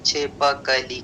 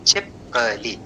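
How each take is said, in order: First: छिपकली as chhi-pa-ka-lee, vowel after प; four syllables. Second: छिपकली as chhip-ka-lee, no vowel after प; three syllables. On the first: Teacher showing the unreduced word, छिपकली as chhi-pa-ka-lee. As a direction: keep all four syllables in छिपकली, sounding प as "pa". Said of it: "उसका एक syllable कम हो जा रहा था". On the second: Teacher showing schwa deletion, छिपकली shortened to chhip-ka-lee. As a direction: close the first syllable of छिपकली on a bare "p". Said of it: "के स्थान पर क्या हो रहा था". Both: Shown as a demonstration.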